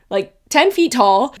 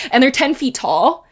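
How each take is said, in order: First: "ten feet tall" drawn out slowly and stressed; emphasis on ten feet tall. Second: Said in the usual way. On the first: Shown as a demonstration. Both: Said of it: "repeats it slower for emphasis".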